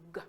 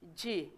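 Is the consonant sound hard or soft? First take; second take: hard; soft. First: A hard consonant sound made in the throat. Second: A soft consonant sound like the letter name. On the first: "the hard G, it is produced by making its letter sound" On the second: "the soft G uses its letter name"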